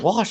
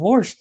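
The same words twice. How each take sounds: First: The word is said without an r sound. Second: The word is said with an r sound. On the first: "It wasn't wash" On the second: "it was with the hard R"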